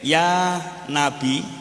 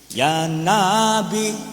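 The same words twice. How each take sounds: First: The first vowel of Nabi is kept short. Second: The first vowel of Nabi is drawn out long. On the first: It means 'O Prophet'. The speaker calls it right. "Lek nane pendek" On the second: The meaning becomes wrong. The speaker calls it wrong. "lho nane gawe panjang, salah artine"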